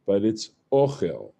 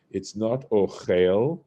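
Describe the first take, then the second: First: Ochel stressed on the first syllable, OCH-el. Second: Ochel with the stress on the last syllable, och-EL; wrong stress. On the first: Teacher shows students the right stress on ochel. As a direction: say ochel as OCH-el, accent on the aleph. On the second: Teacher shows students the wrong stress on ochel. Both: Shown as a demonstration. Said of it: "The accent falls on the aleph".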